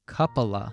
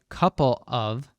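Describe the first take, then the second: First: The word 'of' shrinks to a linked schwa. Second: The word 'of' is said in full. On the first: The speaker calls it right. "we say coupla" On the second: The speaker calls it wrong. "we don't say couple of"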